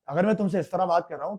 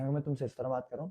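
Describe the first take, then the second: First: It is said loudly, projected as on stage. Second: It is said softly, as in a TV scene.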